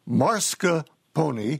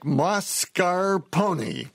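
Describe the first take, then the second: First: The R sound comes in the first syllable. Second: The R sound comes in the second syllable. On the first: The speaker calls it wrong. "It is not pronounced mascarpone as you regularly pronounce it" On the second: The speaker calls it right. "It's more like mascarpone"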